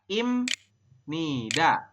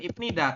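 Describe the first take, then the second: First: The consonant before 'nida' is an 'm'. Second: The consonant before 'nida' is a 'p'. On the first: The speaker calls it right. "tapi dibacanya adalah imnida" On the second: The speaker calls it wrong. "bukan ipnida"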